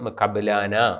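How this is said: The last vowels sound like 'a', ending in -ana. "നമ്മൾ അതിൻ്റെ ഈസ്റ്റിലാണ് ഉച്ചരിച്ച് പതിവുള്ളത്"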